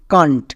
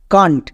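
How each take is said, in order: First: It is said as one contracted word. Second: The same.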